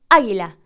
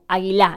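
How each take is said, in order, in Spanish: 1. La tónica está en la primera sílaba. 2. La tónica está en una sílaba posterior. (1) "Nosotros decimos águila" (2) "no decimos águila o águila"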